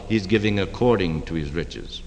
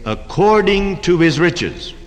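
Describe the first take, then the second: First: Quiet emphasis on according; stress on according. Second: According drawn out slow and high; stress on according. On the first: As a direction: lower and softer on "according to his riches". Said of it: "writes out a check for a hundred thousand dollars". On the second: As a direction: underscore "according to his riches" slowly. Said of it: "I'd like to underscore that phrase". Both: Shown as a demonstration.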